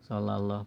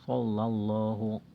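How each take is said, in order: First: The first s is a plain, light s. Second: The first s is a heavy, emphatic s. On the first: The speaker calls it wrong. "Rata-rata kita membacanya dengan sin kan?" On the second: The speaker calls it right. "padahal so, so dengan sin beda ya"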